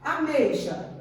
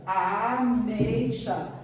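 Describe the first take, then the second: First: Said in the usual way. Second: Ameixa said slowly, a-mei-xa, each syllable apart; a-mei-xa, slow and clear; split into syllables. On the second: Shown as a demonstration. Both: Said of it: "Eu tenho três vogais".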